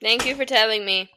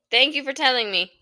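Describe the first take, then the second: First: Sharp retort. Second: Sharp retort repeated. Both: Real, not acted. Arguing with partner off mic.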